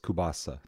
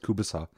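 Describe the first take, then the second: First: It is said the East Coast American way. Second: It is said the local Ukrainian-Canadian way. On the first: "People in the States, they'd pronounce it like on the East Coast" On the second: "Like all the Ukrainian people where I grew up around, it was always kubasa"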